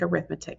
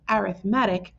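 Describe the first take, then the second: First: The stress is on the second syllable. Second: The stress is on the third syllable. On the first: It names the school subject. "it looks like arithmetic" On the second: It names a type of sequence. "It's where you put the emphasis"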